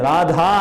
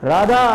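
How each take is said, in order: First: The middle consonant is aspirated, with breath. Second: The middle consonant is plain, without breath. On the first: The speaker calls it right. "రాధా అని పలుకు రాదు" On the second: The speaker calls it wrong. "అంటుంటాడు"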